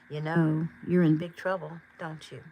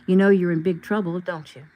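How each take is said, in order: First: It is said softly, as if caring. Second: It is said plainly, without soft caring tone.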